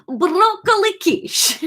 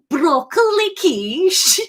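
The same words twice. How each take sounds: First: Slow, laughing Liverpudlian Greek "broccoli quiche"; Liverpudlian Greek accent. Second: Slow, higher Liverpudlian Greek "broccoli quiche"; Liverpudlian Greek accent. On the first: Acted. [name] tells Kate his dinner in a Liverpudlian Greek accent. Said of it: "let's go Liverpudlian Greek". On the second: Shown as a demonstration. Streamer reworks the Liverpudlian Greek accent. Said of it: "I don't know what a Greek accent is".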